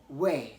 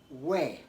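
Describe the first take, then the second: No difference in how they are said.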